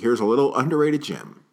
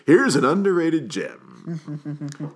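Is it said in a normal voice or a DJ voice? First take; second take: normal voice; DJ voice. First: It is said in his normal speaking voice. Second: It is said in a put-on radio DJ voice.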